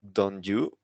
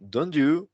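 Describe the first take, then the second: First: Said in the usual way. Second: "Don't you?" higher and louder, rising on "you"; interested rising tag. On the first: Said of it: "You see the intonation". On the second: Shown as a demonstration. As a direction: sound curious as you ask. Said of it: "you hear the intonation now".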